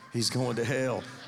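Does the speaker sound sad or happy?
sad. It is said in a sad, sorry tone.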